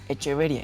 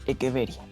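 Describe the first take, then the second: First: The 'ch' is said like 'ch' in church. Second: The 'ch' is said like a 'k' sound. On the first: The speaker calls it wrong. "no es Echeveria" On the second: The speaker calls it right. "C H se pronuncia con el sonido de la K"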